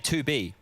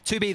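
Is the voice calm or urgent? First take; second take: calm; urgent. First: It is said quietly and calmly. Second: It is said hurriedly and urgently. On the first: The threat seems routine. "J K S is more of a quiet guy" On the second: The threat is serious and immediate. "my voice would be much more flustered"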